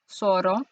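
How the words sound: The first sound is an s sound. "In Latin America, Z is always pronounced like an S"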